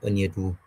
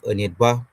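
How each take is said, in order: First: The word ends without a rising tone. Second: The word ends with a rising tone. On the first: It refers to one person. "without the rising tone is the person" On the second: It refers to several people. "with the rising tone, the people"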